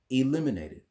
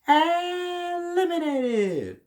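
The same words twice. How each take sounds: First: It is said in a plain, ordinary voice. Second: It is said in an exaggerated, dramatic announcer voice. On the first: The speaker calls it right. "Just say it like this" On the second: The speaker calls it wrong. "the announcer says eliminated like this"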